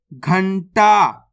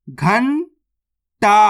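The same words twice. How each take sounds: First: Said in the usual way. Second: Drawn-out syllables, spelled slowly; slowly sounded out. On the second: Shown as a demonstration. Teacher spelling the word aloud for pupils, slow. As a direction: stretch each sound of घंटा slowly. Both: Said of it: "तो मिलके बन जाएगा".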